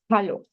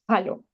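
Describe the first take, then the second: First: It starts with a harsh throaty j sound. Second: It starts with a harsh throaty j sound.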